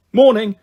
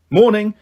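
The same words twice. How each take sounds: First: Higher, louder yawned greeting; a touch of yawn in MORNING. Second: Said in the usual way. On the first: A narrator's reading. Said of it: "Bash yawned from the top bunk". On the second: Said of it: "I replied from the middle bunk".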